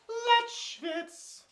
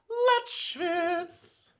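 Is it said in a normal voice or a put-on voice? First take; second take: normal; put-on. First: It is said in his normal voice. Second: It is said in a put-on, wide-nostril voice.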